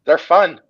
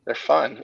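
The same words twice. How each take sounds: First: Enthusiastic. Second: Said in the usual way. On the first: Real, not acted. Enthusing about car wraps.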